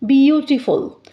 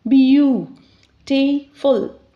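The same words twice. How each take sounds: First: Said in the usual way. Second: 'beautiful.' drawn out slowly as beau-ti-ful; slowly split into syllables. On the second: Shown as a demonstration. Teacher showing students the syllables, slowly stretching 'beautiful.'. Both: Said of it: "we can split it in three sounds".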